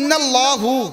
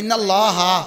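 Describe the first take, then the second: First: The word ends with a 'u' vowel. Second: The word ends with an 'a' vowel. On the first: The speaker calls it wrong. "এতে কটা অশুদ্ধ" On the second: The speaker calls it right. "এটা ইন্নাল্লাহা"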